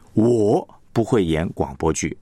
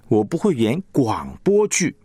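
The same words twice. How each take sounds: First: The stress falls on the word 我. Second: The stress falls on the word 广播剧. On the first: Others can act radio dramas, but not the speaker. "别人会演，但是我不会。" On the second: The speaker can perform other things, but not radio dramas. "可能你会演歌仔戏哈"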